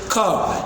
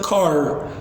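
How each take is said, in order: First: The final r sound is dropped. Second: The final r sound is pronounced. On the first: "in British" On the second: "but in in American"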